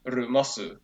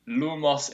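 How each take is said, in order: First: Japanese-accented "rumosu", r for L; Japanese-style take on lumos. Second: "lumos" slowly with clear L and final S; English-style "lumos"; English pronunciation. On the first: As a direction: say "rumosu" like a Japanese speaker, ending on u. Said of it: "something like Japanese, it would be, like". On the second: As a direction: say "lumos" the English way, slightly drawn out. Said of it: "in English". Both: Shown as a demonstration.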